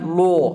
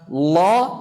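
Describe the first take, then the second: First: A thick l with a rounded, o-like vowel. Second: A thick l with an open, unrounded vowel. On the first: The speaker calls it wrong. "lam yang diucapkan ada bercampur waw" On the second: The speaker calls it right. "lam tebal ... dengan cara mengangkat pangkal lidahnya"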